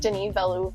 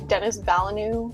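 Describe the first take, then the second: First: The first name is said the French way. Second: The first name is said like English Dennis. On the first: The speaker calls it right. "like that's really how you say it" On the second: The speaker calls it wrong. "I thought it was Dennis Villeneuve or something like that"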